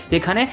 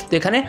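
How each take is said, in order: Both takes have the same delivery.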